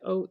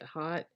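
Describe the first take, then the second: First: The word is said with the vowel of 'oat'. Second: The word is said with the vowel of 'hot'. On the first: "Some people pronounce that oat" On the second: "some people pronounce it hot"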